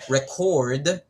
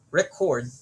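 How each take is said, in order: First: The stress is on the second syllable. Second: The stress is on the first syllable. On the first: It is a verb. "If we add stress on the second syllable" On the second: It is a noun meaning a document or file. "It becomes a noun just by adding stress in the first syllable"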